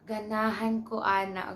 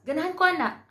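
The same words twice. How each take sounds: First: The phrase is said slowly and flatly. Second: The phrase is said quickly and excitedly. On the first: The speaker calls it wrong. "that's actually weird" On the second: The speaker calls it right. "And you say it fast"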